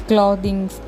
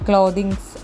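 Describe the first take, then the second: No difference in how they are said.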